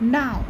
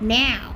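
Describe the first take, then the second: First: The word is short and clipped. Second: The word is drawn out and stretched. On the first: "ব্রিটিশে হবে এরকম, মানে ওই ছুঁড়ে ছুঁড়ে" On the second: "আমেরিকানে ... ওই একটু টেনে টেনে"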